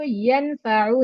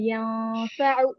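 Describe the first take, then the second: First: The N sound is fully and clearly pronounced. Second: The N sound is hidden and nasalized. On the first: The speaker calls it wrong. "इसको यनफअु नहीं पढ़ना" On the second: The speaker calls it right. "नून को आवाज को यहाँ पर छुपाना होगा"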